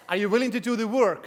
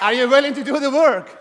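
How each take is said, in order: First: Said in the usual way. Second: Louder, rallying the crowd; pumped-up shout. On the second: Real, not acted. Speaker to audience, hyping them up for a loud yes. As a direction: demand a bigger answer from the room. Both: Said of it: "You don't seem enthusiastic".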